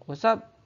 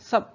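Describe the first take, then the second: First: The greeting is said in full, two syllables. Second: The greeting is shortened to one syllable.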